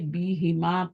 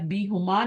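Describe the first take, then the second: First: The vowel after the h is i. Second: The vowel after the h is u. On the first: The speaker calls it right. "B हिमा पढ़ेंगे" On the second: The speaker calls it wrong. "अभी आप बी हुमा नहीं पढ़ेंगे"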